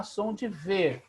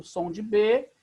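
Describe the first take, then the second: First: "V" said as "vê", a soft buzzed v; "V" pronounced vê, as for Beit without the dot; V sound. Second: "B" said as "bê", with the lips closed; "B" pronounced bê, as for Beit with a dot; B sound. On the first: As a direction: say "V" as vê, not bê. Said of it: "e sem o pontinho". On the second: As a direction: say "B" as a hard bê, not vê. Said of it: "quando tem um pontinho, ele se torna B". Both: Shown as a demonstration.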